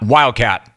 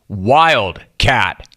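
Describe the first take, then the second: First: It is said as one single word. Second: It is said as two separate words. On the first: A particular kind of cat. The speaker calls it wrong. "not one" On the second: A cat that is not normally kept in captivity. The speaker calls it right. "Two words"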